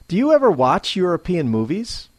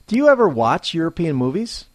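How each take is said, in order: The two takes are said the same way.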